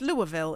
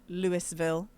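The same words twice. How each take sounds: First: The first part sounds like Louie, without s. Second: The first part sounds like Lewis, with s. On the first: The speaker calls it right. "apparently they pronounce the Lewis French style" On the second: The speaker calls it wrong. "It's not L- Louisville"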